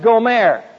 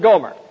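First: The name is said with its Hebrew pronunciation. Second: The name is said with its familiar English pronunciation. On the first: This is the original form of the name. "in the Hebrew, it's pronounced Gomer. That's prettier" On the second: This is the familiar form of the name. "We'll pronounce it Gomer"

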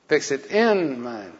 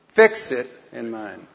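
First: The word 'in' is said loudest. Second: The word 'fix' is said loudest.

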